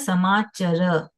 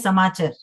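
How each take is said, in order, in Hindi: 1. यह संस्कृत के ढंग से बोला गया है। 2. यह हिंदी के ढंग से बोला गया है। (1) "इसमें बोला है समाचर। ये डिफरेंस है।" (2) "हिंदी में कैसे बोलेंगे?"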